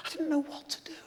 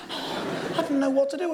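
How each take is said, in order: First: Hushed, barely voiced; whisper. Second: Said in the usual way. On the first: Shown as a demonstration. Confessing his despair to the audience in a whisper. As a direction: breathe it out as a secret.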